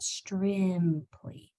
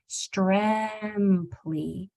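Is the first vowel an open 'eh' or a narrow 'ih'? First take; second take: narrow ih; open eh. First: The first vowel is a narrow ih sound. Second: The first vowel is an open eh sound. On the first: The speaker calls it wrong. "not strimply" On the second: The speaker calls it right. "force your mouth open a little bit, so it's stremply"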